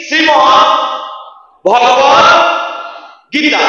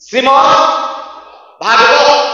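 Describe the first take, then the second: First: ভগবত with short o-like first vowel, set apart; correct Gita pronunciation. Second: ভাগবত with open aa after bh, set apart; contrasting long vowel. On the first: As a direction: sound out ভগবত word by word, no aa after bh. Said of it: "গীতার উচ্চারণটা কি". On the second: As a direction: sound out ভাগবত with a long first aa. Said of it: "আজকে শুনতে কি এসেছি". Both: Shown as a demonstration.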